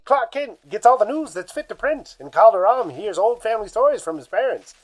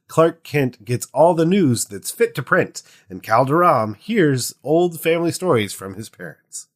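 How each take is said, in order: First: It is read in an old-timey announcer voice. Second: It is read in a plain, normal voice.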